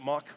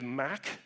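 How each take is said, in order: First: The vowel sounds like the one in cot. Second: The vowel sounds like the one in cat. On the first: This is how the speaker personally says it. "I call it mock" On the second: This is how people in Europe say it. "if you're in Europe, you say MAC"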